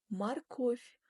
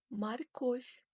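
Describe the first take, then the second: No difference in how they are said.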